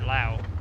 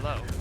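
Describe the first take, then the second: First: The vowel sounds like English 'ow'. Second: The vowel sounds like English 'oh'. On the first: The speaker calls it right. "It's probably Lao" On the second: The speaker calls it wrong. "like a home improvement store name"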